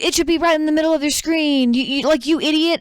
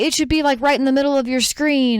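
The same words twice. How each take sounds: First: High, fast, fed-up insistence; mock a caller losing all patience; imitated exasperated scammer. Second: Higher-pitched, mildly strained explaining; retold scammer trying to stay patient; imitated insistent caller. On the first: Scammer loses patience in retelling. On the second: Scammer guiding mom, patience thinning.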